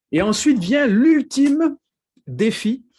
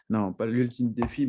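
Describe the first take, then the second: First: High, loud, drawn-out dramatic build-up; mock-grand announcement. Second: Said in the usual way. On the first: Preacher jokingly hyping the last step of his exercise, mock-grand. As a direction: announce it like an epic showdown, tongue in cheek.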